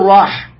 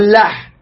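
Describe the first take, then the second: First: The word begins with an r sound. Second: The word begins with an l sound. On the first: The speaker calls it right. "ما يقول راح" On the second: The speaker calls it wrong. "يقول لاح"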